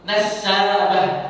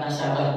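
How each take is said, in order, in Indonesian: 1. Bunyi s digandakan, diikuti vokal panjang. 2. Bunyi s pendek, tanpa vokal panjang. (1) "sinnya pakai tasdid, pakai mat tabi'i" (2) "Bukan Nasabah bang"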